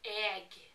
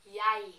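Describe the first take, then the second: First: The word ends with an audible g sound. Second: The word ends in a vowel with no g. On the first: "these ones says egg" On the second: "I would say yay"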